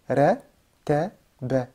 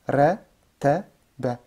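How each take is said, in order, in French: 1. Les trois syllabes sonnent légères et fines. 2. Les trois syllabes sonnent légères et fines.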